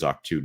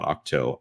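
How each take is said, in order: First: The name ends with an 'oo' vowel. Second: The name ends with an 'oh' vowel. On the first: The speaker calls it right. "which I'm hearing is Octu" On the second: The speaker calls it wrong. "not Octo"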